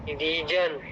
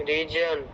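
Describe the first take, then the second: Both takes have the same delivery.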